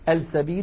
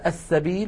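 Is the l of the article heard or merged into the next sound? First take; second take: heard; merged. First: The l is clearly pronounced before the s. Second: The l merges into a doubled s sound. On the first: The speaker calls it wrong. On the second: The speaker calls it right.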